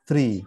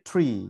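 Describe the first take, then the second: First: The first consonant is a soft t between t and d. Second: The first consonant is a crisp English-style t. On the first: This is how Arabic speakers say it. "ট এবং দ এর মাঝামাঝি একটা শব্দ" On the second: This is how Bengali speakers say it. "আমরা বলি ট্রি"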